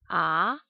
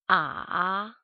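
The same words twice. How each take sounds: First: The pitch rises like a question. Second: The pitch dips low, then rises. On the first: "Second tone sounds like when we are asking a question" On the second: "Third tone sounds like starting angry and then goes up like a question"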